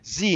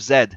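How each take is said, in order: First: The letter is said 'zee', American style. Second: The letter is said 'zed', Canadian style.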